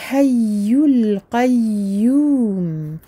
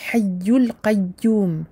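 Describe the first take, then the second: First: The doubled ya is soft and flowing. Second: The doubled ya is cut short and abrupt. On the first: The speaker calls it right. "penser à faire ce ya qui coule" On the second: The speaker calls it wrong. "On ne dit pas hayyul qayyum"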